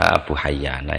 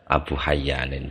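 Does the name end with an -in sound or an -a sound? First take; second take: -a; -in. First: The name ends with a plain -a sound. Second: The name ends with a nasal -in sound. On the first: The final alif and nun are an added suffix. "Abu Hayyana ya bisa" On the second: The final alif and nun are part of the root. "bisa dibaca Abu Hayyanin bisa"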